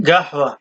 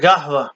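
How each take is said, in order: No difference in how they are said.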